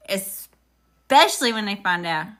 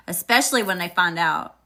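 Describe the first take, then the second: First: "Especially" leaned on, slow and a touch louder; slow emphatic repeat. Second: Said in the usual way. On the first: Shown as a demonstration. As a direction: drag out "Especially when they find out" to drive it home.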